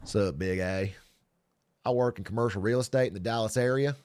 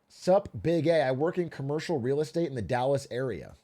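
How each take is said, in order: First: It is read in a put-on Southern accent. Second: It is read in the speaker's plain accent.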